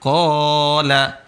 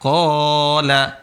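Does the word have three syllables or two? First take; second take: two; two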